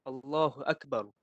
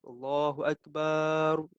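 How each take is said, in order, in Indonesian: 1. Vokal setelah b dibaca pendek. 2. Vokal setelah b dibaca panjang. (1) "macam tu cukup lah. Ba tu pendek je lah" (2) "dipanjangkan ba tu kan. Ah, kesalah lah"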